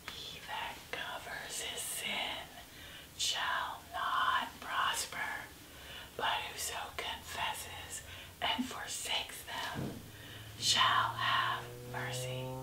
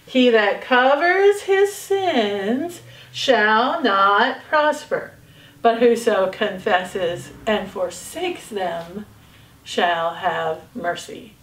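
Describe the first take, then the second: First: It is spoken in a whisper. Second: It is spoken in a normal voice.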